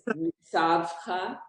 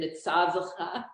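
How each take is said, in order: First: The middle consonants run together with no vowel. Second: A short vowel sound is added between consonants. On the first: "It can either be silent" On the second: "you gave a little sound to the it"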